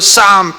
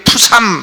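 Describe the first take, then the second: First: The word starts with an S sound, no P. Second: The word starts with a P sound before S. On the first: The speaker calls it right. "이거를 쌈이라고 발음해야지" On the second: The speaker calls it wrong. "푸삼 이렇게 발음해. 아니, 피자는 묵음이에요"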